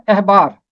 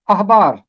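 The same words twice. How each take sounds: First: अहबार with a front e-like first vowel, ehbaar; Urdu style. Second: अहबार with an open a, ahbaar; Arabic style. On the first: Teacher showing the Urdu pronunciation of the word. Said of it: "इसका उर्दू अंदाज है अहबार". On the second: Teacher contrasting it with the Arabic pronunciation. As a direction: say अहबार the Arabic way, opening on a broad ah. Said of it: "लेकिन अरबी अंदाज है अहबार". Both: Shown as a demonstration.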